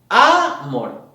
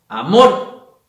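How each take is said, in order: First: The stress is on the first syllable. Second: The stress is on the second syllable. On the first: The speaker calls it wrong. "si ponemos la fuerza de voz en la primera sílaba" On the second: The speaker calls it right. "si lo ponemos en la segunda sílaba"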